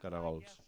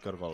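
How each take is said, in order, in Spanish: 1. La palabra se pronuncia en tres sílabas. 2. La palabra se pronuncia en dos sílabas. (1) "heu de pronunciar, diu, com es diu a Torà, diu caragols" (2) "però diuen molt aquí cargols"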